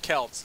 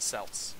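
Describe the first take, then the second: First: Celts said with a hard K, like "kelts"; hard K pronunciation. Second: Celts said with an S sound, like "selts"; soft C pronunciation. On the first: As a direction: start Celts on a K sound. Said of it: "it's pronounced Celts". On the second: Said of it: "It's not pronounced Celts". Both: Shown as a demonstration.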